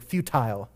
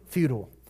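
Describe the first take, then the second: First: The word is said in a British accent. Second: The word is said in a plain American accent.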